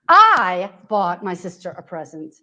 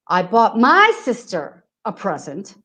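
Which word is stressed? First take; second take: I; sister. First: The stress is on the word I. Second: The stress is on the word sister.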